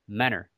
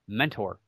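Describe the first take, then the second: First: The middle t sound is dropped, like menner. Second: The middle t sound is clearly pronounced. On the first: This marks the speaker as a local. "us local folks... It's like M-E-N-N-E-R is kind of how we pronounce it" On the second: This is the usual pronunciation. "normally when you see the word mentor, M-E-N-T-O-R, it's pronounced mentor"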